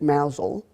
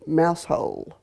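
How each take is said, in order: First: It sounds like one short word, mowzel. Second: It sounds like the two words mouse hole.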